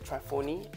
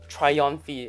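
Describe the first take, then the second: First: The second syllable sounds like 'fo'. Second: The second syllable sounds like 'on'. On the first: The speaker calls it wrong. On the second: The speaker calls it right.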